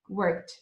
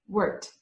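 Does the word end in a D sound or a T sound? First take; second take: T; T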